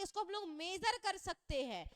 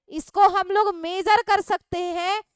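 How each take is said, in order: First: Said in the usual way. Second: Loud and slow, leaning on कर सकते; teacher repeats the point loudly for the class; emphatic repeat. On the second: Shown as a demonstration. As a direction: drive home major कर सकते हैं, louder and slower. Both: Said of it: "repeated with emphasis".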